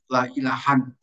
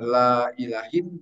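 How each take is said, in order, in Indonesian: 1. Kata terakhir berakhir dengan bunyi -an. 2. Kata terakhir berakhir dengan bunyi -in. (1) "yang lain la ilahan" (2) "bisa dibaca la ilahin"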